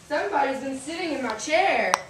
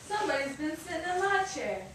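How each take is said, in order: First: It is said in a great big voice. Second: It is said in a middle-sized voice.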